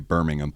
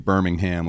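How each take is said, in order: First: It is said the British way. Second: It is said the American way.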